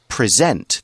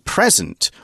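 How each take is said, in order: First: The stress is on the second syllable. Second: The stress is on the first syllable. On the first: It means to show something to someone. "There's more stress on the second syllable" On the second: It names a gift. "As a noun"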